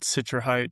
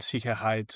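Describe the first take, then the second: First: The word is pronounced with English sounds. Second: The word is pronounced with German sounds. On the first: "just in English" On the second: "the German word Sicherheit"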